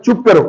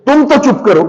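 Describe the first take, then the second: First: Said in the usual way. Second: Higher, sharp telling-off with weight on तो; scolding order. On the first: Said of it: "थोड़ा सा वैसे order करना है". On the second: Shown as a demonstration. Teacher shows a scolding order to silence someone. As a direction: scold them so they shrink back. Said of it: "ये फर्क देखिए दोनों में".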